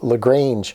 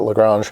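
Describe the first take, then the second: First: The a is said as an American a. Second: The a is said as a non-American a. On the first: "It's probably the American A" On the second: "maybe some people pronounce it Lagrange"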